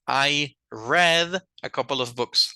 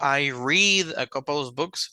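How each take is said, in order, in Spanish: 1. La palabra read tiene una vocal e corta. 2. La palabra read tiene una vocal ee larga. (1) "like the color red" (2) "No estoy diciendo"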